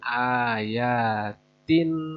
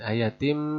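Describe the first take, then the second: First: The word ends with an n sound. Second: The word ends with an m sound. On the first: The speaker calls it wrong. "bukan ayatin" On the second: The speaker calls it right. "tetapi ayatim bayinat"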